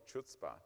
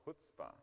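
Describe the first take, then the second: First: The word begins with a 'ch' sound. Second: The word begins with an 'h' sound. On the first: The speaker calls it wrong. "I was calling it Chutzpah" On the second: The speaker calls it right. "it's actually Chutzpah. Okay, I don't know why the C is not"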